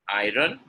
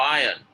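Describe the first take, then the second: First: IRON with the r sounded before the vowel; wrong pronunciation. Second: IRON with a silent r, loud; correct pronunciation. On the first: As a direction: say IRON as "EYE-run", rising. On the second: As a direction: say IRON loudly as "EYE-un", falling. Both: Shown as a demonstration. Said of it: "Iron is correct".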